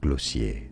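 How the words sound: It is said the French way.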